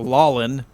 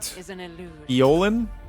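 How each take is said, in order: First: The name begins with an l sound. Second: The name begins with a vowel sound. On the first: The speaker calls it wrong. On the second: The speaker calls it right.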